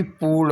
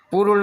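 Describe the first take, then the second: First: पूर्ण with a stretched poo; long oo. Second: पूर्ण with a brief pu; short u. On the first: Teacher correcting the spelling, पूर्ण with long oo. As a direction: hold the oo of पूर्ण. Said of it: "बल्कि पूर्ण होगा". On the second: Teacher showing the error, पूर्ण with short u. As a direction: clip the vowel in पूर्ण. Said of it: "नहीं बल्कि". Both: Shown as a demonstration.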